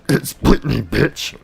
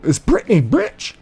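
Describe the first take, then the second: First: It is said in a much deeper voice. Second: It is said in an ordinary voice.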